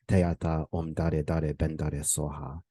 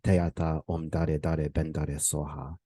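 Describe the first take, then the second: First: It is pronounced in a Tibetan style. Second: The same.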